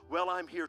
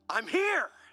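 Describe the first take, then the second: First: It sounds weary and reluctant. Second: It sounds upbeat and glad.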